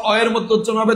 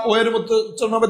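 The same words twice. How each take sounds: First: অ said as an open "aw"; open vowel demo. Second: ও said as a closed "o"; closed vowel demo. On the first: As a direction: pronounce অ with an open, unrounded-off "aw" sound. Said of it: "তখন বিবৃত". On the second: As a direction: pronounce ও as a rounded, close "o". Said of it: "তখন সংবৃত". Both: Shown as a demonstration.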